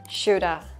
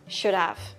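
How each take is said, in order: First: The words merge, with 'have' reduced to a vowel. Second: Both words are pronounced fully and separately.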